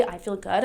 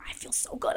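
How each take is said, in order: First: Said in the usual way. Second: Hushed, soft whisper; whispered mantra. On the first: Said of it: "when I say". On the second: Retold or imitated. Softly whispering her mantra to herself. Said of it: "I'm just like".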